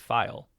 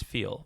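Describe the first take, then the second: First: The word is said with an 'eye' vowel. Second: The word is said with an 'ee' vowel. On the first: The speaker calls it right. "the actual correct pronunciation, and I verified this, is actually file, right, like F I L E" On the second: The speaker calls it wrong. "I was pronouncing it as feel, right, like like the word F E E L"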